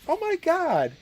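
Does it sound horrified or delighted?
delighted. It sounds delighted and flattered.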